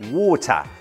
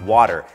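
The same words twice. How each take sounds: First: The middle t is said as a clear t. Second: The middle t sounds like a soft d. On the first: "T, ชัดเป็น" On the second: "เป็นดอเด็กครับ"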